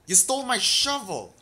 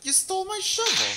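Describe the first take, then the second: First: Loud, high outraged cry; outraged shout. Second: Very high, loud shriek; shrieking outrage. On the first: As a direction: yell it in disbelief. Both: Real, not acted. Goblin stole shovel.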